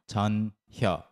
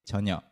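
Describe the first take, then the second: First: It is said slowly with the h sound heard. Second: It is said quickly with the h sound dropped.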